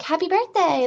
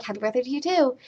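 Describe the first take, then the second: First: High-pitched imitation of a cheery receptionist; chirpy greeting. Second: Mildly raised, imitated polite return greeting; polite reply. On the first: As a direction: mimic her gushing, high greeting. Chirpy desk lady greets her. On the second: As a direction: echo the greeting, less gushing. Her own polite reply to lady.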